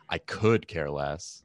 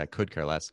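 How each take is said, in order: First: It is said with a sarcastic tone. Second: It is said plainly, without sarcasm.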